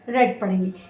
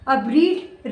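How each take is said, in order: First: The vowel is a short e sound. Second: The vowel is a long ee sound. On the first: It is the past tense. "Past और past participle में उसको हम रेड, रेड पढ़ेंगे" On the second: It is the present tense. "ऐसा इसको तो आप बोलेंगे रीड यानी पढ़ना"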